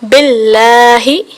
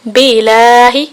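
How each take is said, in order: First: The l sound is held and doubled. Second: The l sound is short and single. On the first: The speaker calls it right. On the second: The speaker calls it wrong.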